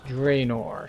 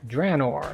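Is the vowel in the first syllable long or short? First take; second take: long; short. First: The first vowel is a long vowel. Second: The first vowel is a short A. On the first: The speaker calls it wrong. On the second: The speaker calls it right. "Short A"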